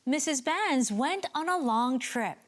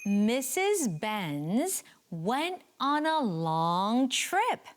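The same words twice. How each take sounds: First: It is said at a faster pace. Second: It is said at a slower pace.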